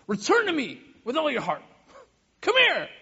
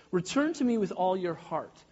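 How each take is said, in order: First: Raised voice climbing to a shout; exasperated parent. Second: Said in the usual way. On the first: Retold or imitated. Parent calling a child in anger, a sharp raised call. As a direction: call a kid back, losing patience. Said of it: "how I might speak to Mayal or Elliot in a time of desperation or a time of anger". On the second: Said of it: "maybe how I might speak to Mayal".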